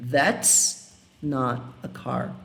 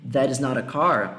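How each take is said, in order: First: That's drawn out slowly, contracted; teacher slowly modelling "That's not a car" with that's. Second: Said in the usual way. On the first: Shown as a demonstration. Teacher showing the contraction, slow and deliberate. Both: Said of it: "eu poderia ter falado aqui".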